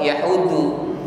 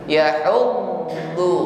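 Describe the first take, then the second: First: The middle consonant is clipped short. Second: The middle consonant is held and prolonged. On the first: The speaker calls it wrong. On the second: The speaker calls it right.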